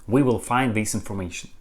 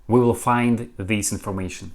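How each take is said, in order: No difference in how they are said.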